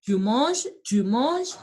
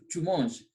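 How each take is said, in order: First: "tu manges" rising sharply on "manges"; questioning intonation. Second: "tu manges" falling at the end; affirmative statement. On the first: Teacher turning the French statement into a question, rising tone. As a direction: ask "tu manges" with the pitch climbing at the end. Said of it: "the tone variation". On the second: Teacher models the French statement for students, falling affirmative tone. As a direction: say "tu manges" as a statement, pitch dropping. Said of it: "The first one is affirmative". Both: Shown as a demonstration.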